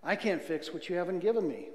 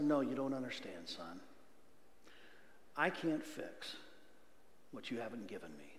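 First: Said in the usual way. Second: Soft, fading voice of God; gentle God voice. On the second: Retold or imitated. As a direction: speak as a patient father to his son. Preacher voices God's reply.

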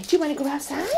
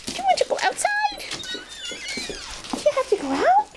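First: Said in the usual way. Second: High, fast sing-song ask; high excited question. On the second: Real, not acted. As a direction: perk the dog up with a high ask. Asking dog, high and fast.

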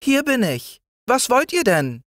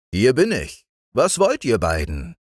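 First: Sehr hohes, feines Stimmchen; Spinnenstimme. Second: Tiefer als die Kinder, ruhig; Winterstimme. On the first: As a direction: als winzige Spinne antworten. (Spinne antwortet den Kindern mit sehr hohem Stimmchen) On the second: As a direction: als gemütlicher Winter antworten. (Winter antwortet den Kindern ruhig und tiefer) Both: A narrator's reading.

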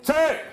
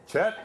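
First: Loud, much higher Pennsylvania Dutch correction of Chet; Pennsylvania Dutch shout. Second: Said in the usual way. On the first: Retold or imitated. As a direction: bark the name back in thick Pennsylvania Dutch. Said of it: "they talk funny and they shout".

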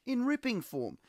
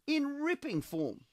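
First: Said in the usual way. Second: High, slow, savouring "In ripping form."; drawn-out high "In ripping form."; emphatic. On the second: Shown as a demonstration.

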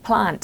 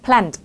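First: "plant" with the British 'ah' vowel. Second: "plant" with the American 'ae' vowel. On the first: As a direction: give "plant" a British อะ sound. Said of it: "ถ้าเป็นอังกฤษเขาจะเป็นอะ". (plant แบบอังกฤษ สระอะ) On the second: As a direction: give "plant" an American แอะ sound. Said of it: "เขาจะเสียงแอะแอะนะ". (plant แบบอเมริกัน สระแอะ) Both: Shown as a demonstration.

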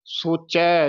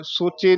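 First: ਸੋਚੈ ending in a wide "ai"; open "ai" ending. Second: ਸੋਚੇ ending in a close "e"; wrong vowel ending. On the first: Teacher modelling the double vowel mark, open ending. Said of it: "ਚੱਚੇ ਦੀਆਂ ਦਲਾਵਾਂ". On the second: Teacher showing what not to say, close final vowel. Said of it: "ਸੋਚੇ ਨਹੀਂ ਕਹਿਣਾ". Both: Shown as a demonstration.

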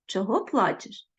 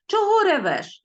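First: Kind demo. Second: «ревеш» said with mock scorn, louder and higher; contemptuous demo. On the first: Teacher demonstrating the kind boy's gentle question. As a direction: ask «Чого плачеш?» with sympathy. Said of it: "такий би хлопчик мав сказати". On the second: Teacher demonstrating the rude boy's scornful question. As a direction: sneer out «Чого ревеш?» as the rude boy. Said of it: "ревіти ... зневажливе". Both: Shown as a demonstration.

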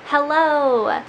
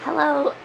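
First: Said in the usual way. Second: A croaky hello, throat not yet cleared; hello with a frog in the throat; uncleared throat. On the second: Real, not acted. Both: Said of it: "learn to clear my throat".

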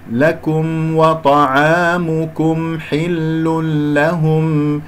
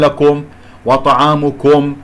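First: لكم وطعامكم chanted slowly with thin "kum"; correct light kaf. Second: لكم and وطعامكم with "kom" for "kum"; wrong heavy kaf. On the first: (ترتيل «لكم وطعامكم» بكاف مرققة) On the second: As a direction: thicken each K in لكم، وطعامكم. («لكم» و«وطعامكم» بتفخيم الكاف خطأً) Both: Shown as a demonstration. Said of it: "أفخم الكافات".

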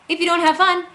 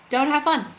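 First: High, loud, excited voice. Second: Said in the usual way. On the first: Acted. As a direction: pitch it up, bright and loud. Repeats the fun line twice.

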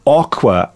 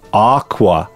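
First: "aqua" with short o, OCK-wa; variant aqua. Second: "aqua" with a long ah, AHK-wa; long-vowel aqua. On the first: Reader listing American-influenced variants, short-o aqua. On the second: Reader listing American-influenced variants, long-ah aqua. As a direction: say "aqua" as AAHK-wah. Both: Shown as a demonstration. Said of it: "come from the Spanish influences".

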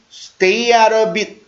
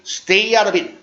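First: Slow, linked "stay out of it"; slow pronunciation model. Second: Brisk, linked "stay out of it"; quicker pronunciation model. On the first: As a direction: stretch it out for learners to copy. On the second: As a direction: run it together at natural speed. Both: Shown as a demonstration. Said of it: "발음을 한번 연습할게요".

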